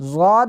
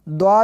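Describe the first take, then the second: First: It begins with a buzzing z-like sound. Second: It begins with a stopped d-like sound. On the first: "इसको ज़ाद भी पढ़ते हैं" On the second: "और द्वाद भी पढ़ते हैं, दोनों तरह से पढ़ना दुरुस्त है"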